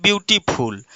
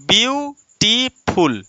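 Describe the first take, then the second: First: Said in the usual way. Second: "beautiful" slowly split as view, टी, फुल with gaps; syllable by syllable. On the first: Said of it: "शब्द खंड कैसे खंड किया जाता है". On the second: Shown as a demonstration. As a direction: say "beautiful" in three drawn-out, separate pieces. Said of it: "एक खंड हमारा ब्यू में रुका". ("ब्यूटीफुल" को धीरे-धीरे तीन खंडों में: ब्यू... टी... फुल)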